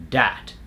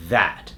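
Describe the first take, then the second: First: "dat" with a hard D instead of TH. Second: "that" with a buzzing TH; tongue between teeth to start "that"; voiced TH. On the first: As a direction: substitute a D at the start of "dat". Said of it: "People will say a word like". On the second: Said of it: "instead of". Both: Shown as a demonstration.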